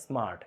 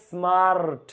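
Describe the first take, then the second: First: Said in the usual way. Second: স্মার্ট stretched out as es-smaa-rrt; wrongly drawn out. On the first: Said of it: "এক syllable". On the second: Shown as a demonstration. Teacher showing how nobody says it, স্মার্ট exaggeratedly stretched. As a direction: drag every sound of স্মার্ট, as if it had several syllables. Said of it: "এরকম কেউ বলে না".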